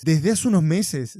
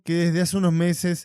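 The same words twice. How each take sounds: First: Slow, questioning emphasis on "Desde hace unos meses"; pointed repetition. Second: Said in the usual way. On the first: Real, not acted. Repite la cita, cuestionándola. (repetición lenta y recalcada de "unos meses")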